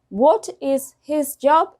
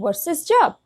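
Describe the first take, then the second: First: Each word is said fully and separately. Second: The first words blend into a short reduced form.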